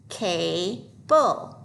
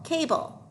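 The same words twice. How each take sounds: First: "Cable" stretched into cay, pause, bull; syllable by syllable. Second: Said in the usual way. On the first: Shown as a demonstration. Teacher decoding a word for pupils, syllable by syllable. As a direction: sound out "Cable" in two slow parts. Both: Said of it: "so the A should say A".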